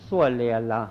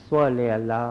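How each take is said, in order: The two takes are said the same way.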